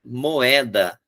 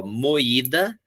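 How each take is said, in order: First: "moeda" as mo-É-da; "moeda" said carefully, o and e kept apart; careful contrast vowel. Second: "moída" slowly as mo-Í-da; "moída" with o and í kept apart; careful hiatus. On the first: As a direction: open stressed e in "moeda". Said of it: "eu só troquei o i pelo e". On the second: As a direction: stretch the stressed í in "moída". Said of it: "observar a semelhança de escrita". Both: Shown as a demonstration.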